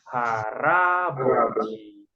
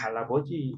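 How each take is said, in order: First: The second consonant is an R sound. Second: The second consonant is an L sound. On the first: The speaker calls it right. "tapi haraboji" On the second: The speaker calls it wrong. "bukan halaboji"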